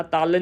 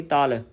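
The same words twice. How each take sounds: First: ਤਲ with a hard, doubled L; wrong doubled consonant. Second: ਤਲ said lightly with a single L; soft single consonant. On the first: Teacher showing what to avoid, ਤਲ with doubled L. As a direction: press the L at the end of ਤਲ. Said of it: "ਕਿਸੇ ਨੇ ਅਦਕ ਨਹੀਂ ਲਗਾਉਣੀ". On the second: Teacher showing the correct reading, ਤਲ with soft L. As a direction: leave the L of ਤਲ loose and soft. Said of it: "ਪੋਲਾ ਜਾ". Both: Shown as a demonstration.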